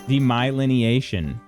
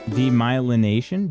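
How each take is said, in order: First: It has seven syllables, with an extra 'ni'. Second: It has six syllables, without an extra 'ni'. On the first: The speaker calls it wrong. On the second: The speaker calls it right.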